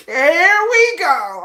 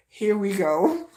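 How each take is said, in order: First: Higher, louder, very slow "Here we go."; mock-exasperated repeat. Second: Slow, resigned "Here we go."; eye-roll sigh of a line; weary here we go. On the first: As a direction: stretch "Here we go." out in loud disbelief. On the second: Retold or imitated. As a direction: drag out "Here we go." like you've heard it all. Reacting to the stalker's line.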